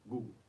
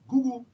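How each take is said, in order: First: The word is said with a lower, plain pitch. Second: The word is said with a raised pitch. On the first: The speaker calls it right. "It's Google" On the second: The speaker calls it wrong. "you just took your voice up. It's not Google"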